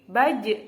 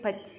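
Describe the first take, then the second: First: The final consonant ends with an echoing bounce. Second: The final consonant stops flat without a bounce. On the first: The speaker calls it right. "harus ada pantulannya" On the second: The speaker calls it wrong. "tidak boleh baj"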